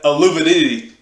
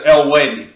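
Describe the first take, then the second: First: The name is said as a longer 'Aluvidity'. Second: The name is said as a short 'Elwady'. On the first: The speaker calls it wrong. "I was saying it wrong for like five years" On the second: The speaker calls it right. "the pronouncing of their name is Elwady"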